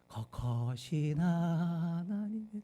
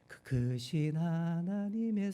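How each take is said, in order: First: The opening vowels are 'eo' sounds. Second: The opening vowels are 'eu' sounds.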